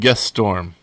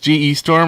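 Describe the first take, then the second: First: G E is said as one syllable. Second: G and E are said as separate letters. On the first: "or do you think it's like Guess Storm?" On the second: "You think that's G E Storm"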